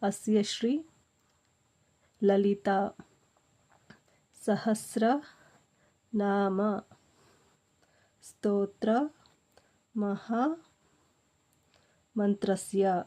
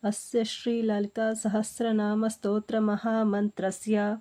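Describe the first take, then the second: First: It is recited slowly, broken into parts. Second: It is recited quickly, in one smooth run. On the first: "ಇವಾಗ ನಾನು ನಿಮಗೆ slow ಆಗಿ ಹೇಳ್ಕೊಡ್ತಾ ಇದ್ದೀನಿ" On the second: "ಈ ಥರ ನಿಮಗೆ ಸ್ಪೀಡಾಗಿ ಬರುತ್ತೆ"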